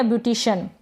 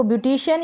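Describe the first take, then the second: First: "ब्यूटिशियन" ending in one syllable, shun; short shun ending. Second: "ब्यूटिशियन" ending in two syllables, shi-yan; full shi-yan ending. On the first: Teacher offering second option, "ब्यूटिशियन" with shun ending. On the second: Teacher offering first option, "ब्यूटिशियन" with shi-yan ending. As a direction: keep the Y glide in "ब्यूटिशियन". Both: Shown as a demonstration. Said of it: "दोनों तरीके से pronounce".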